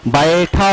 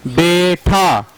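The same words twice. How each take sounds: First: बैठा with a wide ae sound; correct baitha. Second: बेठा with a plain e sound, the wrong way; wrong bentha. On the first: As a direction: open the vowel in बैठा to ae. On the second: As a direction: say बेठा with a flat e, as the mistake. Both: Shown as a demonstration. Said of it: "असल लफ्ज बेठा नहीं होता".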